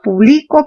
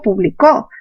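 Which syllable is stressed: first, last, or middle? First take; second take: middle; last. First: The stress is on the middle syllable. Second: The stress is on the last syllable.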